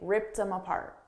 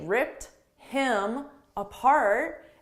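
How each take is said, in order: First: The words run together, linked smoothly. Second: Each word is said separately, without linking. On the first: "a native English speaker is going to say" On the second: "pronounce it without linking"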